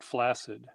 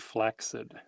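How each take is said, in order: First: The double C is said as a plain S. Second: The double C is said as a KS sound. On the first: The speaker calls it wrong. "so it's not flaccid" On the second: The speaker calls it right. "It's actually flaccid. ... The two C's create an X sound"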